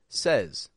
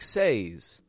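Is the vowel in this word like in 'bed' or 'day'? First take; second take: bed; day. First: The vowel sounds like the one in 'bed'. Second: The vowel sounds like the one in 'day'. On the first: The speaker calls it right. "I say says. Says, as if it's an S-E-Z" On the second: The speaker calls it wrong. "I don't actually say it like says"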